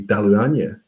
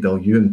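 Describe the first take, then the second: First: The name is said with Gaelic sounds. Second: The name is said in a shortened anglicized form. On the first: It names the place in a Gaelic context. "in Gaelic, I guess it would be Daluanya" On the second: It names the whisky brand when ordering. "Diageo refer to it as Dalyun"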